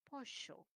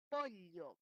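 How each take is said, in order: First: Pollo said posho with sh. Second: Pollo said poʎo with the Andean ll; ll as lateral. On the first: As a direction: turn the ll in pollo into sh. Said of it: "Y otro dice". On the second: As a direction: keep the ll in pollo as a palatal l. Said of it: "con la L". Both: Shown as a demonstration.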